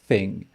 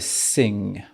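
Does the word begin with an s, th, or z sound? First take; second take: th; s. First: The word begins with the tongue-between-teeth th sound. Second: The word begins with a hissing s sound. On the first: The speaker calls it right. "On veut entendre thing" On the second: The speaker calls it wrong. "On ne veut pas entendre de sing"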